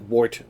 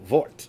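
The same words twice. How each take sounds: First: The word begins with a W sound. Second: The word begins with a V sound. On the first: "I'll just say it like English" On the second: "the W's in German are pronounced like V's, so Wort"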